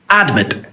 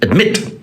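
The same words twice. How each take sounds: First: The stress is on the first syllable. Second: The stress is on the second syllable. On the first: The speaker calls it wrong. "It is not admit" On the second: The speaker calls it right. "the mit is the strong syllable"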